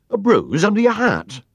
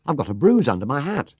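First: High, loud startled question; concerned echo. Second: "bruise" and "hat" said high and loud; plaintive report. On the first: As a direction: repeat it back in alarmed disbelief. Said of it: "repeated Alf Duckham, looking most concerned". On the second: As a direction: report it in character, lifting "bruise". Paddington reports his bruise to Alf. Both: A narrator's reading.

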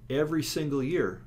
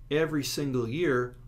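The two takes are said the same way.

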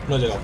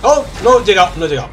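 First: Said in the usual way. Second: Loud frustrated cry; frustrated shout. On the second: Real, not acted. Missed a jump in game.

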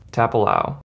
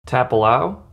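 The two takes are said the same way.

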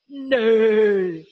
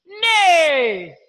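First: Horse neigh. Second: Said in the usual way. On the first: Shown as a demonstration. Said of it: "Like a horse". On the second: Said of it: "The sound made by a horse is".

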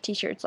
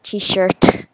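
First: Said in the usual way. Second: Loud French-accented T-SHIRT. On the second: Shown as a demonstration. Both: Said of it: "but, like, in a French accent".

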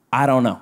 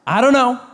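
First: Low, calm I don't know; demo reply. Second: Said in the usual way. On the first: Shown as a demonstration. Preacher teaching congregation what to say, low and calm. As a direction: model the line flatly and low. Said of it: "You say this". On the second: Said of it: "Turn to your neighbor and say".

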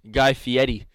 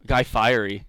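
First: Fieri said "fee-ED-ee". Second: Fieri said like "fiery"; anglicized surname. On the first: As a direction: pronounce Fieri Italian-style, r turned to d. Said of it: "He says it with a D". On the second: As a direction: rhyme Fieri with "diary". Says the name two ways. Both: Shown as a demonstration.

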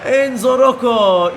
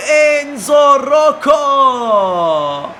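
First: Calmer commentator repeat. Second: Very slow stretched scorer's name shout; screaming football commentator. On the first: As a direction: repeat the name, winding down. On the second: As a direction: drag the name out in a huge shout. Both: Acted.

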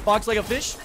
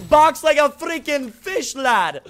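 First: Said in the usual way. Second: Louder, slower, stretching each word; emphatic slow yell. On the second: Real, not acted. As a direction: drag out the line with a big yell. Repeats own line, louder second time.

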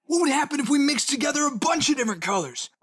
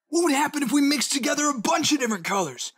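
Both takes have the same delivery.

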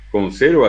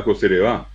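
First: "conserva" stressed on the middle syllable; Spanish stress on SER in "conserva"; penultimate stress. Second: "coserevá" stressed on the last syllable; Guaraní stress on the end of "coserevá"; final-syllable stress. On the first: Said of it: "tienen acentos llanos". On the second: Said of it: "El guaraní es un idioma de sílabas agudas". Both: Shown as a demonstration.

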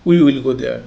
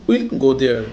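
First: Said in the usual way. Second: "We'll" as one syllable; contracted form. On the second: Shown as a demonstration. Teacher gives example sentence, "We'll" contracted to one syllable. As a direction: run "We'll" together before go there. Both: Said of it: "অর্থাৎ".

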